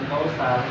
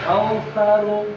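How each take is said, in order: First: The middle consonant is a plain s sound. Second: The middle consonant is a lisped th sound. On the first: The speaker calls it wrong. "bukan kausar" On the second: The speaker calls it right. "ke atas nyentuh dengan gigi atas"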